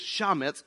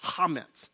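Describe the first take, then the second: First: It is said the way English spelling suggests. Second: It is said with the Hebrew pronunciation. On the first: The speaker calls it wrong. "We would say it like this" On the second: The speaker calls it right. "but it's pronounced chametz"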